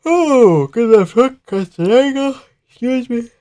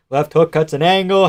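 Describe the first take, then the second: First: Very high-pitched amazed reaction; excited squeal. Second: Said in the usual way. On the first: Real, not acted. Watcher amazed by the left hook, excited squeal. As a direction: squeal the call in high falsetto.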